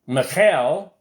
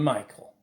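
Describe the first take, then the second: First: The name is said in a non-English pronunciation. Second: The name is said in the familiar English pronunciation. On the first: "I don't know how what the other pronunciations are" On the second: "we called him Michael"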